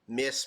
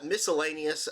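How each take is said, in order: First: It is said as one syllable ending in s. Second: It is said as the full word miscellaneous. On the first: "maybe the C's silent" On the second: "I don't know if that's how you say it"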